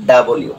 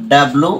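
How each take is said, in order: First: "ডাব্লিউ" as da-bol-yu, three syllables; British letter W. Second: "ডাব্লু" squeezed into two syllables, dab-lu; Bangladeshi letter W. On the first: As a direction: glide into yu at the end of "ডাব্লিউ". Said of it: "ওরা বলে সেখানে". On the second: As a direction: run b and l together in "ডাব্লু". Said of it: "আমরা যেখানে বলি". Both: Shown as a demonstration.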